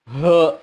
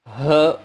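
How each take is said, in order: Both takes have the same delivery.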